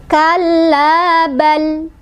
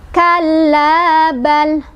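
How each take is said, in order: No difference in how they are said.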